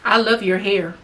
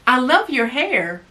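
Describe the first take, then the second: First: The tone carries a masculine energy. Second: The tone carries a feminine energy. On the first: The message will not be received well. The speaker calls it wrong. "I was definitely in my masculine energy" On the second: The message will be received well. The speaker calls it right. "I was operating in my feminine energy"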